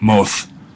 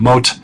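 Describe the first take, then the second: First: The final consonant is a soft th sound. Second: The final consonant is a plain t sound. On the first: "or this hypothetical ancient Israelite" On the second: "you could do the Israeli pronunciation"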